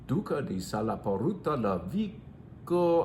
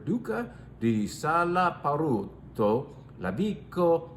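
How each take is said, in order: First: The name is said at a faster pace. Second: The name is said at a slower pace.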